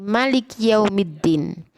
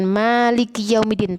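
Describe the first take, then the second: First: The first vowel of Maliki is kept short. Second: The first vowel of Maliki is drawn out long. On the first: The speaker calls it right. "Maliki dibaca pendek" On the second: The speaker calls it wrong.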